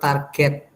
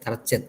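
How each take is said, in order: First: The g is said as a hard g. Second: The g is said like a j sound. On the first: The speaker calls it right. "Yang betul target ya" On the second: The speaker calls it wrong. "ngomongnya target target target itu salah ya"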